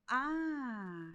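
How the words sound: The interjection sounds surprised. The speaker is surprised. "de surpresa"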